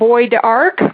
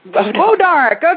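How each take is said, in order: First: The first syllable does not sound like 'bow'. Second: The first syllable sounds like 'bow'. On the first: The speaker calls it wrong. "hopefully I pronounced this right" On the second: The speaker calls it right. "that sounds more like it"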